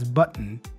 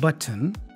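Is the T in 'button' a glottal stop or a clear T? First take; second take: glottal stop; clear t. First: The T is a glottal stop. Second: The T is a clear, released T. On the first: "he says button. ... So there is a bit of a glottal sound there" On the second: "Not button"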